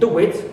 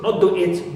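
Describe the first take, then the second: First: A w glide joins the two words. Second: The words are separated without a w glide. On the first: The speaker calls it right. "Here we link the two words together" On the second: The speaker calls it wrong.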